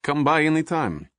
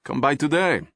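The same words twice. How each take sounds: First: Put-on inviting warmly in a Russian accent, pitched up. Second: Put-on higher Russian-accented urging; pressing the offer in a Russian accent, pitched up. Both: A narrator's reading. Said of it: "He spoke with a Russian accent".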